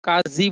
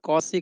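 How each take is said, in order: First: It has a long a, a z sound, and ends in ee. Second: It has an au vowel, an s sound, and ends in ee. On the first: "कोई काजी बोलता है" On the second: "कोई कौसी कहता है"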